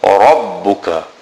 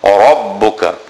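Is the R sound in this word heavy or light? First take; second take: heavy; heavy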